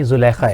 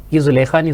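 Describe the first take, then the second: First: زلیخا said with the correct vowels; correct pronunciation. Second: زلیخا said the mistaken way; wrong pronunciation. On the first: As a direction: give the teacher's correct زلیخا. (زلیخا کا درست تلفظ) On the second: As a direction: say زلیخا as the student did. (زلیخا کا غلط تلفظ) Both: Shown as a demonstration.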